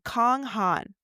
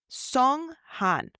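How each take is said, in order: First: The name begins with a hard k sound. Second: The name begins with a ts-like sound. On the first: The speaker calls it wrong. "I'm not calling him Kong, like a dog toy" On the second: The speaker calls it right. "I'm not doing the correct, fully correct pr- Chinese pronunciation"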